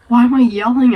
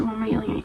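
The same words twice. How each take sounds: First: Calling out loud without meaning to; a real burst of volume, then catching yourself. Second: Dropped way down to a hush; quiet. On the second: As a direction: pull it back, suddenly soft and sheepish. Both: Real, not acted.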